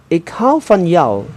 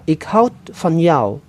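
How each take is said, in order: First: The verb ends without a d sound. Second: The verb ends with an audible d sound. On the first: This is the informal variant. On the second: This is the formal variant.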